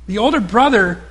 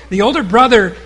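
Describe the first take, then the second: No difference in how they are said.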